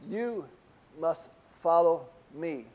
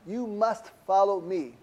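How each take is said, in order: First: "you" set apart, then "must follow me" slow; single out "you" before a slow "must follow me"; stress on you. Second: "must" leaned on, slow and weighty; stress on must. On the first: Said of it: "indicates the strong emphasis of". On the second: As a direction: press the word "must" firmly, slowly. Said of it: "to give the emphasis". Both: Shown as a demonstration.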